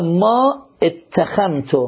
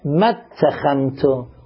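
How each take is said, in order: First: The second word starts with its own separate vowel. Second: The second word's first vowel is dropped and merged. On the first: The speaker calls it wrong. "یه غلط عام" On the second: The speaker calls it right. "چون که الفش همزه وصله، کسرش حذف کن"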